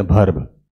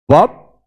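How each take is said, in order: First: वर्ब low, as "bharb" with breathy B and sounded R; mistaken local pronunciation. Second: वर्ब punched loud, R left out, like "wub"; silent R. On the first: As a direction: open वर्ब on "bh", R audible. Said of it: "हम लोग बोल देते हैं". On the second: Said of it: "वर्ब बोलना है". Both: Shown as a demonstration.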